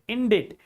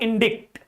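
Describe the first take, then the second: First: No k sound comes before the final t. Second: A k sound comes before the final t. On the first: The speaker calls it right. "Here C is silent" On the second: The speaker calls it wrong. "not indict"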